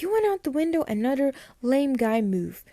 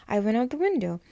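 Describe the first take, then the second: First: High-pitched mock disbelief; incredulous retort. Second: Said in the usual way. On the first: Caroline to Matt about his window exit, incredulous retort. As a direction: throw it back as an indignant, acted question. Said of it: "And Caroline's like". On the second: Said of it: "and he's like".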